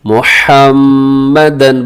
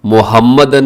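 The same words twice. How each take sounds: First: मुहम्मदन with breathy throat h and long hummed "mm"; correct tajweed. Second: Casual Urdu-style मुहम्मदन; wrong pronunciation. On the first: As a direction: slowly hold the doubled m in मुहम्मदन. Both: Shown as a demonstration. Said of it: "मुहम्मदन नहीं बल्कि".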